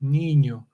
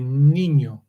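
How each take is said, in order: First: The second consonant is a ny sound. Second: The second consonant is a ny sound.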